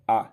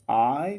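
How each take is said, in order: First: The vowel in 'I' is kept short. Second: The vowel in 'I' is drawn out long. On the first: "if I don't make any stress upon the pronunciation of this pronoun" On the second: "I am just prolonging the the sound of this pronoun"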